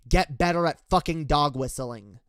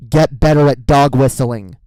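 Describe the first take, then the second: First: Said in the usual way. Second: A real, full shout, pitched lower; shouted advice. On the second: Real, not acted. Ranting vlogger shouting advice at right-wingers, full furious shout. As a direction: bellow it at them.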